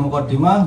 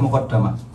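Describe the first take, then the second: First: The vowel after the double d is 'i'. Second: The vowel after the double d is 'a'. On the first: It brings the reader forward to the book's topics. "Boleh muqaddimah" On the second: The author placed it before the rest. "boleh muqaddamah"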